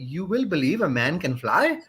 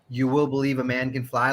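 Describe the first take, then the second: First: It is said in a child's accent. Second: It is said in a plain voice.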